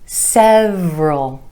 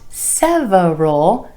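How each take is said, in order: First: The word is said with two syllables. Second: The word is said with three syllables. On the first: The speaker calls it right. "two syllables" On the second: The speaker calls it wrong. "Not several"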